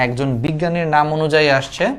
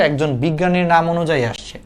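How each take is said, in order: Both takes have the same delivery.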